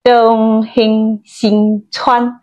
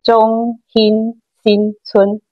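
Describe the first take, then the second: First: It is said in Taiwanese. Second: It is said in Hakka.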